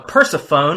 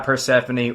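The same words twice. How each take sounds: First: The name is said differently, with a cheesy delivery. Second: The name is said plainly, in the usual way. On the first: The speaker calls it wrong. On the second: The speaker calls it right.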